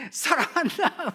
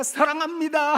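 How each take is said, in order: First: Slow fond father's reply. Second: High, loud I love you; excited I love you. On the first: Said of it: "막 그러세요". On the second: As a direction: call out the love to an old father. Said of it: "제가 … 하면". (아버지께 높고 크게 외치는 사랑합니다) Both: Retold or imitated.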